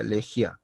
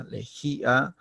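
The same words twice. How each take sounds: First: Lejía squeezed into two syllables, le-jia, as a diphthong; lejía with the i glided into the a; wrong lejía. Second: Lejía said in three syllables, le-jí-a, stressed í; lejía with the í stressed and kept apart from the a; correct lejía. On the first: Teacher shows lejía without the tilde, two syllables. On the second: Teacher models correct lejía in three syllables. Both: Shown as a demonstration. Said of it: "si no hubiese esa tilde".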